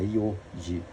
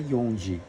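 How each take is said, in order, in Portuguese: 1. Nenhum som de n vem antes de ji. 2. Um som de n vem antes de ji. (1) "é Yoji" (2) "Não vamos falar Yonji, que tá errado"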